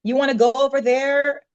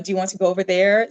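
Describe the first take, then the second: First: "wanna" run together as one casual word; relaxed "wanna" in place of "want to"; casual American wanna. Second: "want to" said as two proper words; proper phrasing, "want to" not run into "wanna"; quick but proper "want to". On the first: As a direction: say "wanna" loosely, American-style, pitched up. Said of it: "a lot of people would say". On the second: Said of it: "So it's very proper". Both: Shown as a demonstration.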